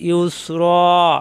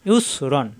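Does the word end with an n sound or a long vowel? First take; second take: long vowel; n sound. First: The word ends with a drawn-out a vowel. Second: The word ends with a short vowel and n. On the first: The reader stops at this point. "একালিপ টান হবে" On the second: The reading continues without stopping. "র দুই যাব রন"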